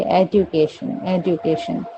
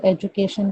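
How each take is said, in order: First: "एजुकेशन" as "ed-yoo-kay-shun"; their pronunciation. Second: Said in the usual way. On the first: Shown as a demonstration. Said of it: "वो क्या कहेंगे?". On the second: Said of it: "हम suppose एजुकेशन कहेंगे".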